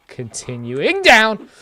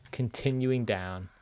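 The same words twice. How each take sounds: First: High, slow, loud mock dramatic call; scared horror game streamer. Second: Said in the usual way. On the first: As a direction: announce the descent theatrically.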